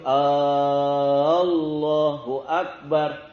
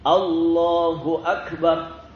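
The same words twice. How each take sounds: First: The opening vowel before Allah is drawn out long. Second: The opening vowel before Allah is kept short. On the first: It asks whether God is the greatest. The speaker calls it wrong. "itu kalau orang membacanya begitu" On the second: It states that God is the greatest. The speaker calls it right. "Maka lafalkan dengan baik"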